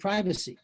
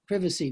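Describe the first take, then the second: First: The word has an American pronunciation. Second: The word has a British pronunciation.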